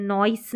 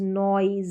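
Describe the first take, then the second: First: "नॉइस" ending in voiceless s; wrong reading with S. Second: "नॉइज" with a buzzed final z; Z ending. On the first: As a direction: end "नॉइस" on s instead of z. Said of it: "नॉइस नहीं पढ़ते हैं". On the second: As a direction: end "नॉइज" on a voiced z. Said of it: "एस ई का उच्चारण ज". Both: Shown as a demonstration.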